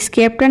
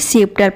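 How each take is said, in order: First: The word begins with an sk sound. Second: The word begins with a plain s sound. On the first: The speaker calls it wrong. "स्केप्टर नहीं" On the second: The speaker calls it right. "सीप्टर पढ़ते हैं"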